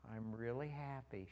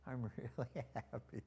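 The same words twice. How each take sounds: First: Granddaughter's slow, unhurried speech; slow quoted reply; imitating slow talker. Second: Exaggerated slow drawl of his granddaughter; slow-motion mimicry, drawn out on happy; imitating slow talker. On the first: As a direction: take your time on each word, imitating her. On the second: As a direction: stretch the words out, teasing her slowness. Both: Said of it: "She talks kind of slow sometimes".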